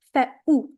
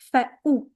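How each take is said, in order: First: The glottal stop is strong and clear. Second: The glottal stop is strong and clear.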